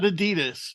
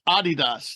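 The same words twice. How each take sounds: First: It is said with the American pronunciation. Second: It is said with the European pronunciation. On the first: "not Adidas" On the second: "in Europe, it's Adidas"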